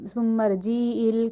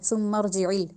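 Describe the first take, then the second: First: The vowel after the j is stretched long. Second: The vowel after the j is kept short. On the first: The speaker calls it wrong. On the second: The speaker calls it right.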